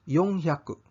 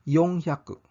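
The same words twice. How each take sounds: The two takes are said the same way.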